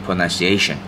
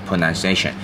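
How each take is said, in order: No difference in how they are said.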